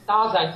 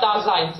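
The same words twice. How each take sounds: First: The stress is on the first syllable. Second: The stress is on the second syllable. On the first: The speaker calls it right. "it's Daseins, yeah. Right. the stress on the da" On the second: The speaker calls it wrong. "It's not Daseins"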